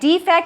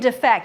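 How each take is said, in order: First: The stress is on the first syllable. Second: The stress is on the second syllable. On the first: A flaw or imperfection in something. "from the first syllable" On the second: To leave your country for another. "to the second syllable"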